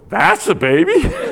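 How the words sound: The phrase is said with a marked, odd emphasis. It sounds like an insult about the baby. The speaker calls it wrong. "Just don't put the emphasis on the wrong syllable"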